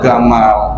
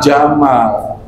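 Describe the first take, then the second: First: Egyptian style, beginning with a hard g. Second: Standard style, beginning with a j sound.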